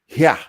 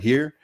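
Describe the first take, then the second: First: The word ends without an r sound. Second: The word ends with an r sound. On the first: "British English speakers that pronounce the word here like" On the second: "English speakers who pronounce the word here just like that"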